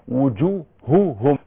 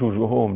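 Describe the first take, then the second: First: Both h sounds are pronounced clearly and distinctly. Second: The h sounds are weakened and run together. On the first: The speaker calls it right. "بين" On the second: The speaker calls it wrong. "مش"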